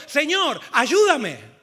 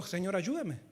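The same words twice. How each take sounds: First: Loud cry for help; booming plea, falling at the end; desperate shout. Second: Said in the usual way. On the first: Acted. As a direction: shout it out as a drowning man would. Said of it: "entonces gritó". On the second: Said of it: "¿Gritó así Pedro?".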